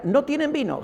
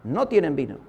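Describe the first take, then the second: First: High-pitched quote of Mary, falling at the end; quoted hint. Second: Low, falling quote of Mary; knowing repeat. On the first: Preacher quotes Jesus' mother saying the wine is gone, high-pitched hint. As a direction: lift it high, then let it fall. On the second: Preacher repeats the mother's words to the congregation, low and knowing. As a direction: drop it low, as an understood hint. Same hint repeated as understood. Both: Retold or imitated.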